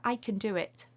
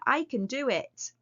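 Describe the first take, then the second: First: The phrase is said at a quieter volume. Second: The phrase is said at a louder volume. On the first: The speaker does not sound convinced. The speaker calls it wrong. "didn't sound like you meant it" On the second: The speaker sounds convinced. The speaker calls it right. "even louder"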